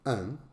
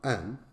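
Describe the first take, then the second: First: The vowel is full and clearly pronounced. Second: The vowel is full and clearly pronounced.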